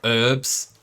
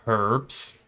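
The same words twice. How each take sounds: First: The word is said in an American way. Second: The word is said in a non-American way.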